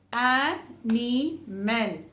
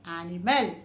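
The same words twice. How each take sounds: First: Slow, syllables split. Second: Said in the usual way. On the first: Shown as a demonstration. Teacher showing three syllables, slowly. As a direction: sound out each syllable. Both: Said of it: "which has three syllables".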